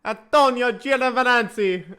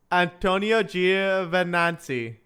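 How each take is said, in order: First: Mock Italian name, higher, breaking into laughter; hammed-up Italian accent. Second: "Antonio Giovinazzi" said slowly, at an even pitch; careful slow attempt. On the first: Streamer trying a driver's name to offend Italians, mock Italian accent. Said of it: "I'll try to say it and offend every Italian". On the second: Streamer retrying a hard driver's name, slow and careful. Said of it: "I'll try to say it". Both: Shown as a demonstration.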